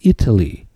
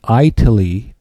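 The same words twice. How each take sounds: First: The first vowel is a short 'i' sound. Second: The first vowel sounds like the letter 'eye'. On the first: The speaker calls it right. "It's Italy" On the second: The speaker calls it wrong. "it's not Italy, just because it's spelled with an I"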